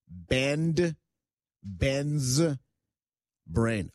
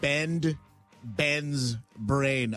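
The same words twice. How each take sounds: First: It is said slowly and carefully. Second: It is said at a normal, quick pace.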